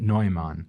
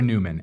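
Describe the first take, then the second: First: The name is pronounced with a German sound. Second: The name is pronounced with an English sound. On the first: This is the original German form of the name. "from the little bit of time I spent in Germany, makes me so want to pronounce it Neumann" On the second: This is how the name is commonly heard in America. "most people will hear Newman"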